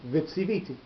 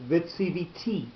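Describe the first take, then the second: First: The stress falls before the last syllable. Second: The stress falls on the last syllable. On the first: The action happened in the past. "So normally, if you were going to pronounce it" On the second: The action will happen in the future. "the accent is going to be on the last syllable"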